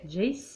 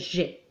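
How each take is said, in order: First: It is said the English way, rhyming with 'face'. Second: It is said the plain French way, like 'j'ai'. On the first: "je le prononcerai Jace, donc pour euh, aller un petit peu le, le côté English" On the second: "comment de lire tout simplement j'ai"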